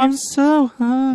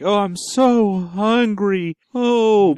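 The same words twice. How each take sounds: First: Squeaky whiny puppet; high, hungry little puppet. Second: Drawn-out hungry moan; slow, eerie moan from the monster; slow moaning creature. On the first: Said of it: "in a high-pitched puppet voice". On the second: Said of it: "So it just starts going like". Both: Pretend.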